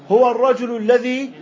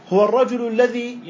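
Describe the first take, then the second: No difference in how they are said.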